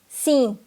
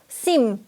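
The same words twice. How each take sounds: First: It ends in a nasal vowel, lips staying open. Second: It ends with the lips closing on an m sound.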